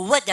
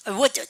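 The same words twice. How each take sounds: First: Said in the usual way. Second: "would" pronounced carefully as the modal verb; corrected pronunciation of "would". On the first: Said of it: "발음할 때도 사실은 나무하고 다르죠". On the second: Shown as a demonstration. Teacher showing "would" differs from the word for tree, corrected pronunciation. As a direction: say "would" with a rounded w glide, unlike the plain take. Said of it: "would가 아니고 would 아닙니까".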